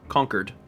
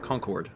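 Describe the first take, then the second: First: It is said with the local residents' pronunciation. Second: It is said with an out-of-town pronunciation. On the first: The speaker lives in the town. "people that live there would call it Concord" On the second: The speaker is from out of town. "anyone from out of town would call it Concord"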